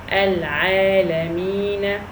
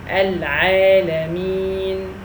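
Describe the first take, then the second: First: The word ends with a short a vowel. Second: The word ends on the consonant n. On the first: The speaker calls it wrong. "here we don't say al-alamina" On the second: The speaker calls it right. "if we stop, we say al-alamin"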